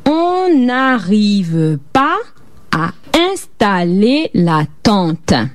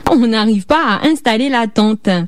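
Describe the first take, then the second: First: It is said a little more slowly. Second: It is said at normal speed.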